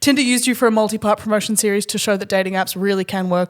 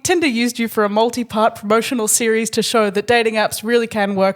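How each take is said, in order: First: It is said at a quicker pace. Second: It is said at a slower pace.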